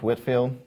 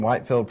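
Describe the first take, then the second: First: The first syllable rhymes with 'kit'. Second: The first syllable rhymes with 'kite'. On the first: The speaker calls it right. "but I think it's actually Whit" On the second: The speaker calls it wrong.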